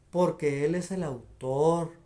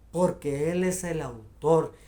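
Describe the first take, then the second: No difference in how they are said.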